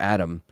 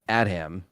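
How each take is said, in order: First: The h sound in the middle is silent. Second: The h sound in the middle is pronounced.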